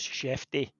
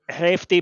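First: The name begins with an SH sound. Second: The name begins with an H sound. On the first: The speaker calls it right. "I've been assured by our Portuguese speakers in the Rangers family that it's Shefty" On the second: The speaker calls it wrong. "I did too, Hefty"

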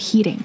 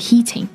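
First: The middle t softens to a d-like sound. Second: The middle t is a crisp t sound. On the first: "美式英语的人会说 heating 这个 T 的确会软化变成的的音" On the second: "英式英语的人会说 heating"

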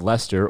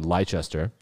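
First: The name is said in a British way. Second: The name is said in an American way. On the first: "This is the University of Leicester" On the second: "or if you're American"

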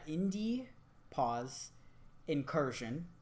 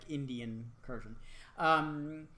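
First: Each word of the name is said clearly apart. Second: The first words blur together into one word. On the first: The speaker calls it right. "I have to say it like that" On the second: The speaker calls it wrong. "otherwise it sounds like Indian Incursion"

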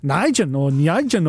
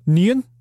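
First: The name is said with a 'j' sound. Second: The name is said without a 'j' sound. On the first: This is how the hosts said it last week. The speaker calls it wrong. "we were pronouncing it as Nijan or whatever it was" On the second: This is how the commentators say it. The speaker calls it right. "they just call him Nian"

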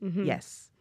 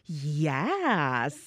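First: The vowel is a plain 'e' sound, 'yes'. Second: The vowel is an open 'a' sound, 'yas'. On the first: It sounds serious. "this is too serious" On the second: It sounds like enthusiastic slang praise. "it's good"

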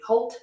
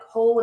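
First: The word ends with a T sound. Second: The word ends with a D sound.

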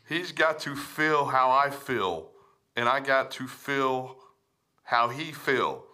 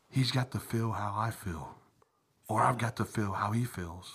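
First: It is read in a plain voice. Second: It is read in a put-on sexy voice.

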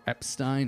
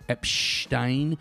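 First: The middle has a plain s sound. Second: The middle has an sh sound. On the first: The speaker calls it wrong. "It's not Boris Epstein or Epstein" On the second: The speaker calls it right. "it's pronounced with the SH sound in the middle"

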